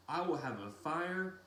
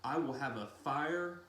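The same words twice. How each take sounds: The two takes are said the same way.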